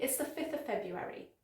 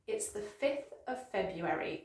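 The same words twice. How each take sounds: First: Soft, quicker run through the tongue twister; quick whole sentence. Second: Measured, soft model sentence; careful pace. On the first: Teacher speeds up a tricky date, quick delivery. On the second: Teacher models a tricky date, careful unhurried pace. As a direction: say it carefully, word by word, for learners. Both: Shown as a demonstration. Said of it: "The whole sentence quickly".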